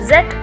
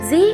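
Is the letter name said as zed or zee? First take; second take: zed; zee. First: The letter is said as zed. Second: The letter is said as zee. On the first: This is the British English name. "British இங்கிலீஷ்லையும்" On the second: This is the American English name. "American இங்கிலீஷ்லையும்"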